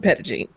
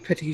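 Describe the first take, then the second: First: The word has an Americanized English pronunciation. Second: The word has a French pronunciation. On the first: The speaker calls it wrong. "everybody here calls it" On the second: The speaker calls it right. "if you were to pronounce it in French"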